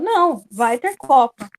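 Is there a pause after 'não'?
yes. There is a pause after não.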